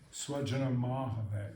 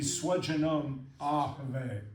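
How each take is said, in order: First: The words run together with a linking m. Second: The two words are said separately, unlinked. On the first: The words are merged as in the poetic text. "And then with Sunday" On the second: Each word is kept in its dictionary form. "to break Sunday"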